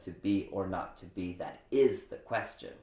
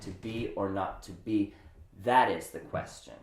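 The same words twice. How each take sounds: First: The word is gets more emphasis than that. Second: The word that gets more emphasis than is.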